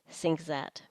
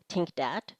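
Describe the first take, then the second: First: Both words begin with s and z sounds. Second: Both words begin with t and d sounds. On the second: "substitute alveolar td"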